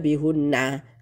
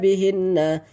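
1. Vokal setelah h itu u. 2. Vokal setelah h itu i. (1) "tidak dibaca bihunna karena sebelumnya kasroh" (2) "bihinna dibaca bihinna"

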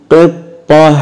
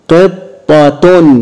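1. الكلمة تنتهي بصوت هاء لينة. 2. الكلمة تنتهي بصوت التاء مع حركة. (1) "اتنطقت هاء" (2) "بالتشكيل"

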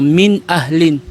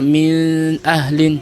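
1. Malinaw at buo ang pagbigkas sa tunog na n. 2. Nakatago ang tunog na n sa nasal na huni. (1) "dapat mo siyang ibigkas ng malinaw" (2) "Hindi mo siya gawing ikhfa"

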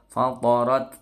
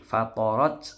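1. Bunyi t itu sedang dan tidak berlebihan. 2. Bunyi t itu berlebihan dan dilebih-lebihkan. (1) "cukup fatorat" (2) "tidak boleh berlebihan seperti C"

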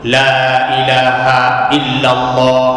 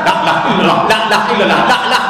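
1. Frasa itu diucapkan dengan pelan dan jelas. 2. Frasa itu diucapkan dengan cepat dan tidak jelas.

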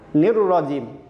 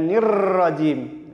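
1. r hanya digetar sekali. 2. r digetar berkali-kali.

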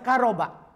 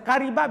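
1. Vokal setelah r adalah a. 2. Vokal setelah r adalah i. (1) "dibaca karoba itu lebih fasih" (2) "boleh di kasroh"

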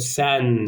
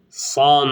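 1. Ünlü ince, ön bir 'e'. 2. Ünlü kalın, arka bir 'a'. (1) "Sen dediğiniz zaman sanki bunu sen söylemiş gibi olursunuz" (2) "An sesi çıkması gerekiyor. San değil mi?"

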